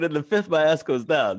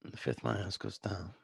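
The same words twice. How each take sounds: First: Raised voice, louder and higher; repeating to be heard. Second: Soft, understated tough-guy impression; Bruce Willis. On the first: Real, not acted. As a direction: repeat it loudly so they hear it. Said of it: "I said". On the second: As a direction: say it quietly, barely projecting. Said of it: "This is my Bruce Willis from Pulp Fiction".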